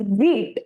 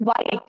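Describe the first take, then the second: First: The word sounds like 'wheat'. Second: The word sounds like 'white'. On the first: The speaker calls it right. "It is wheat" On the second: The speaker calls it wrong.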